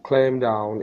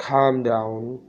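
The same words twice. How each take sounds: First: "clam" with the L sounded early, like "klem"; mispronounced calm. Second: "calm" with silent L and long open "aa"; correct calm. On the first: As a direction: misread calm as "clam", L right after the C. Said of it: "इस तरह पढ़ता था". ("clam" का गलत उच्चारण, "क्लेम" जैसा) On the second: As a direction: say "calm" as "kaam", no L sound. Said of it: "तो इसका सही प्रोनाउंसिएशन". ("calm" का सही उच्चारण, "काम" जैसा) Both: Shown as a demonstration.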